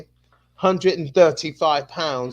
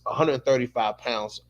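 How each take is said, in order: First: It is said in a put-on British accent. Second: It is said in his normal American accent.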